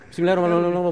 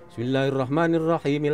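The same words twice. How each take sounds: First: It is said very fast. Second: It is said at medium speed.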